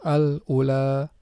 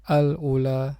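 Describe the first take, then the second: No difference in how they are said.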